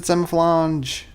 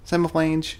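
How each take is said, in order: First: Semiflange ending like French "flahnzh"; French-style pronunciation. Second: Semiflange ending in English "flaynj"; English-style pronunciation. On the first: Streamer greeting a viewer, Semiflange said French-style, "flahnzh". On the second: Streamer repeating a viewer's name, Semiflange rhymed with range. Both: Shown as a demonstration. Name said two different ways.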